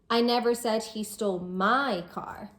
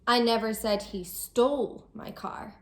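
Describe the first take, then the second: First: The word my carries the main stress. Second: The word stole carries the main stress. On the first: The stolen car belonged to someone else. "So it wasn't my car he stole, it was someone else's" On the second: He took the car some other way, not by stealing. "I might be saying that he didn't steal my car, maybe he borrowed it"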